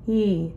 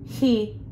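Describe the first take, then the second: First: The vowel starts cleanly and gently, without breathiness. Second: The vowel starts with a breathy rush of air. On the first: The speaker calls it right. "imagine an H before the E, but don't quite do the H" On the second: The speaker calls it wrong. "The second example was too much air passing through"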